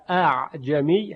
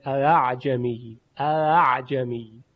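First: اعجمی begun "a-a'jami" with two separate glottal stops; two distinct hamzas at the start of اعجمی; both hamzas full. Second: اعجمی drawn slowly, "aa'jami" with the second hamza melted into the vowel; eased second hamza. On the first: Teacher giving the word before easing it, both hamzas fully stopped. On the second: Teacher demonstrating tashil on the word, second hamza softened. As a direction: glide through the double "a" opening اعجمی without a second stop. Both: Shown as a demonstration.

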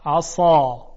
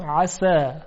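First: عصا with thick, dark ص, much louder; tongue back and up, thick ص in عصا; emphatic ص with dark a in عصا; heavy emphatic s. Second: عسا with a fine, thin س; thin sin in عسا, light vowel. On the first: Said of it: "ببینید چقدر صداش درشته". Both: Shown as a demonstration.

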